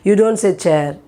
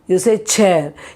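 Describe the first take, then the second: First: The ch is said without extra air. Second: The ch is said with a strong puff of air. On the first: The speaker calls it wrong. "You don't say" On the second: The speaker calls it right. "you pronounce it with pressure"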